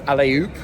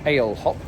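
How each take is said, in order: First: The first part sounds like the word alley. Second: The first part sounds like the word ale. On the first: This is how it is probably meant to be said. "I think it's more like alley-oop, like jump" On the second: This is how English speakers would read it. "what we would pronounce as ale hop, like ginger ale"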